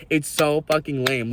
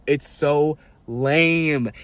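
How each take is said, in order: First: Said in the usual way. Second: Drawn-out, very slow "It's so lame" with a dragging fall on "lame"; disgusted. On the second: Real, not acted. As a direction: let "It's so lame" sag out slowly in disgust. Disgusted sigh at homophobes.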